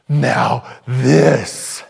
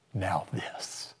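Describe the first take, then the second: First: Louder, proud "Now this."; grand reveal. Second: Soft whispered "Now this."; hushed reveal. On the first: God unveiling eternal glory, loud proud reveal. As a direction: announce the greatest gift. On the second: God showing believers heaven, soft whisper. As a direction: unveil it like a secret. God unveiling the next glory. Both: Pretend.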